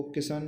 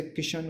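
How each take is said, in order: First: किशन said as "kisan"; sa for sha. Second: Said in the usual way. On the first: Shown as a demonstration. Teacher showing a common mistake, किशन said as "kisan". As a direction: use a plain "s" for sh in किशन. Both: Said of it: "शा को सा भी कहते हैं".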